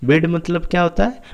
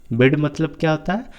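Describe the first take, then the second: No difference in how they are said.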